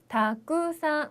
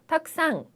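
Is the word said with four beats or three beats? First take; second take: four beats; three beats. First: The word is said with four even beats. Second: The word is squeezed into three beats. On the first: The speaker calls it right. "네 박자로 발음을 해주시면 훨씬 더 좋을 것 같네요" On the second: The speaker calls it wrong. "이렇게 세 글자로 발음을 하지 마시고"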